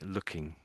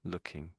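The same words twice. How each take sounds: Both takes have the same delivery.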